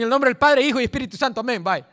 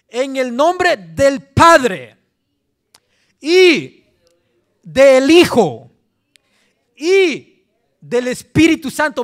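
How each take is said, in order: First: It is said quickly and rushed. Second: It is said slowly and carefully.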